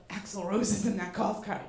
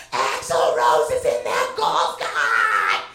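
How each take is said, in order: First: Said in the usual way. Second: Slow, loud, drawn-out shout of the name; losing it shouting. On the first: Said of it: "And then I said to [name]". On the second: Retold or imitated. Fan screaming to husband about [name] in golf cart, full-out shout. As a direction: bellow it like you just lost your mind. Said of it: "I fucking lost my shit".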